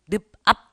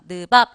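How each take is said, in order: First: The middle consonant is an aspirated p sound. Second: The middle consonant is a plain b sound. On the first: The speaker calls it wrong. "이게 아닙니다" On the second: The speaker calls it right. "느밥 이렇게 가는 겁니다"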